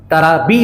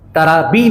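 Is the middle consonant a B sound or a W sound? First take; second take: B sound; B sound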